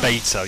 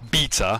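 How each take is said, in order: First: The word is said with an American pronunciation. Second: The word is said with a British pronunciation. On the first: The speaker calls it wrong. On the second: The speaker calls it right.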